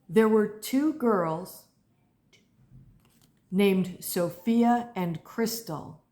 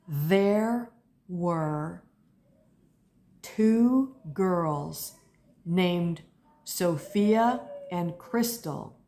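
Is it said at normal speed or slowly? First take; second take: normal speed; slowly. First: It is said at normal speed. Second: It is said a little more slowly.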